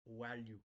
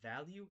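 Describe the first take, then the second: First: The word starts with a w-like sound. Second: The word starts with a plain v sound. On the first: "the V needs to sound like a W" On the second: "So instead of value"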